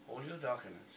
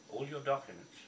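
No difference in how they are said.

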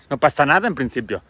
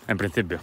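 First: Said in the usual way. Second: Knowing aside. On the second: Real, not acted. Knowing quiet echo.

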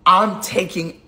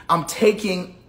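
Both takes have the same delivery.

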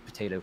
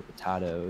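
First: "potato," with a long A, po-TAY-to. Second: "potato" with a broad A, po-TAH-to. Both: Shown as a demonstration. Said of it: "You're pronouncing this wrong".

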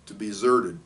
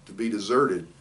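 The two takes are said the same way.

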